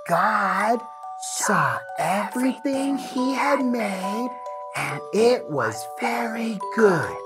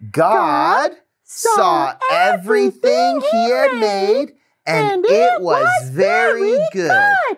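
First: The verse is said in a soft, quiet whisper. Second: The verse is said in a full, normal voice.

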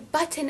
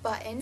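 First: The T in the middle is clearly enunciated. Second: The T in the middle is not enunciated. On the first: "That's just ridiculous" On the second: "no one enunciates the T where I live"

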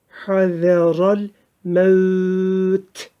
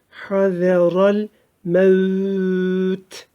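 Both takes have the same delivery.

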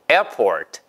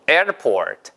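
The two takes are said the same way.

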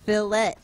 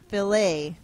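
First: The word is said in a non-French way. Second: The word is said in a French-like way. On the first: The speaker calls it right. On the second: The speaker calls it wrong.

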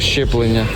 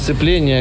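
First: The word begins with a 'shch' sound. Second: The word begins with an 's' sound. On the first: The speaker calls it right. "а щеплення" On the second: The speaker calls it wrong. "Не сцеплення"

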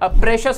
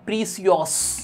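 First: The middle consonant is a 'sh' sound. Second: The middle consonant is an 's' sound. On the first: This is how the word is really pronounced. "मान लो प्रेशियस word आपको याद नहीं होता" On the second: This reading helps to remember the spelling. "प्रीसियस पढ़ लो"

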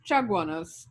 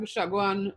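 First: The opening ch sounds as in Spanish. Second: The opening sound follows French Creole pronunciation. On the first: "would have been the Spanish pronunciations" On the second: "the French and Patois speakers gave us"

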